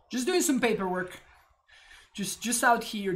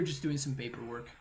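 First: Playful. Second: Said in the usual way. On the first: Pretend. Playful line repeated.

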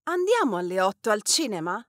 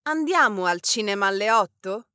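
First: Andiamo alle otto al cinema? with the weight on al cinema; emphasis on al cinema. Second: Andiamo al cinema alle otto? with the weight on alle otto; emphasis on alle otto. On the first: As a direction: stress the place, al cinema. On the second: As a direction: stress the time, alle otto. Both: Shown as a demonstration. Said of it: "what part of the question we want to emphasize".

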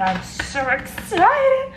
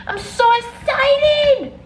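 First: Drawn-out, high-pitched excited cry; put-on excitement, slow and high; excited squeal. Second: Very high, loud, long-drawn squeal; imitated squeal, stretched right out; over-the-top excited squeal. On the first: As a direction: stretch it out in a high, giddy voice. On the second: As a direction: top the last take with a hammed-up shriek of excitement. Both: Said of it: "The way the person goes".

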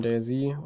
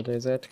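First: DayZ with the English letter name for Z; first reading of an uncertain name, DayZ; variant pronunciation. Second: D Z as the other reading of DayZ, Z named as a separate letter; second reading of an uncertain name, D Z; alternative pronunciation. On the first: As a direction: say DayZ the English way, ending in "zee". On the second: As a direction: say D Z with a different letter name for the final Z. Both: Shown as a demonstration. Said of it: "wie man's jetzt ausspricht".

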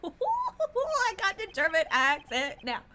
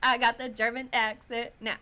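First: Slow, loud, laughing through the words; laughing boast, louder and slowed down. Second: Lightly put-on German accent, a bit louder; a hint of German accent, boasting about it. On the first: Real, not acted. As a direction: giggle out the boast. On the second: Shown as a demonstration.

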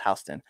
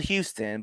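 First: Houston said as HOUSE-tun; local pronunciation. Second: Houston said as HYOO-stun; spelling pronunciation. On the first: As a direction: say Houston with HOUSE as its first syllable. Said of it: "pronounced Houston". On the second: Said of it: "It's spelled Houston". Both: Shown as a demonstration.

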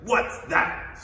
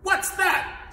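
First: Louder, indignant royal snort. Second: High, loud, startled snap; snapped. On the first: Turtle king spots the rising moon, snorting. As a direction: snort it out in affront. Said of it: "snorted Yertle". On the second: Turtle king hears a faint sigh below, snapping. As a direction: snap it out, pitch leaping up. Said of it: "snapped the king". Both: Acted.

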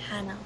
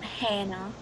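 First: "Hannah" with an open short "a"; correct name pronunciation. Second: "Hannah" with a raised vowel, like HEN-nuh; imitated mispronunciation. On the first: Shown as a demonstration. Correcting friend on own name "Hannah", correct pronunciation. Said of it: "no one can pronounce my name properly". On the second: Showing friend how they botch "Hannah", imitated mispronunciation. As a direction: say "Hannah" as HEH-nə, the wrong example. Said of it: "Not Hannah".

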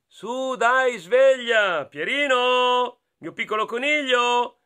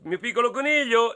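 First: A touch higher, slow coaxing mother; lightly voiced mother. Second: Lightly voiced mother. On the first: Mother waking her bunny, lightly higher and slow. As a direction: gently wake the little rabbit. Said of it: "la mamma gli diceva".

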